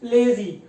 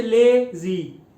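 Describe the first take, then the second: First: Said in the usual way. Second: lazy split as ले, pause, जी; broken in two. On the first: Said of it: "जिस तरह मैं लिखता हूँ lazy". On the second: Shown as a demonstration. Teacher voicing students' wrong split, lazy broken in two. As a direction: stretch ले, then land जी separately in lazy. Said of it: "ये भी टूट सकता है".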